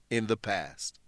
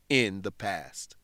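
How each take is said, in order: Both takes have the same delivery.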